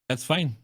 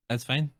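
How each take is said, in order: Both takes have the same delivery.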